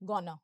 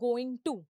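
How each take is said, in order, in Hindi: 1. शब्द मिलकर एक रिड्यूस्ड शब्द बन जाते हैं। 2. दो अलग-अलग पूरे शब्द बोले जाते हैं। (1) "ये फिर से रिड्यूस्ड टर्म है" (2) "यहाँ पे होता है गोइंग टू"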